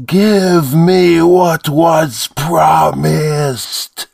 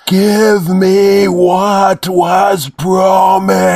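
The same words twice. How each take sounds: First: High, very slow creature demand; demanding monster voice. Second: High, loud, very slow monstrous shout; more powerful demand. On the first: Demon pressing the priest for its promise. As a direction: drag each word out menacingly. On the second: Demon roaring at the priest for its promise. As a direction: bellow the demand with full force. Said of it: "more clearly and powerfully". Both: A narrator's reading.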